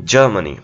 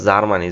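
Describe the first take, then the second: First: জার্মানি as "JUR-muh-nee", silent R; firm J and stressed first syllable in জার্মানি; correct pronunciation. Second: জার্মানি as "zar-maa-ni" with sounded R; Z start, open vowels in জার্মানি; common mispronunciation. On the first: Teacher giving the correct country name, J-start জার্মানি with silent R. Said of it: "জার্মানির সঠিক উচ্চারণটা হচ্ছে". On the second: Teacher questioning whether such a word exists, Z-start জার্মানি. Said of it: "জার্মানি বলতে কি আসলেই কোনো শব্দ আছে?". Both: Shown as a demonstration.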